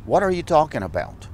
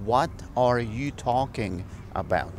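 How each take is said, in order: First: Said in the usual way. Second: Said slowly, word by word; slow it down for learners; slow, careful repeat. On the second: Shown as a demonstration. (despacio y claro para los alumnos)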